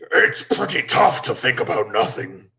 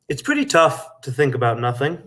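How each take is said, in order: First: It is said in a big scary monster voice. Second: It is said in his own normal voice.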